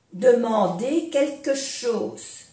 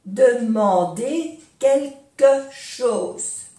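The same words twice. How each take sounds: First: Said in the usual way. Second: "Demander quelque chose" slowly, each syllable apart. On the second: Shown as a demonstration. Teacher modelling for learners, "Demander quelque chose" slowly syllable by syllable.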